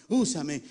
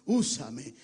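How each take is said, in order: Both takes have the same delivery.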